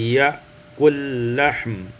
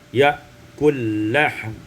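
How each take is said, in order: First: The two l sounds merge into one. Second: The two l sounds merge into one.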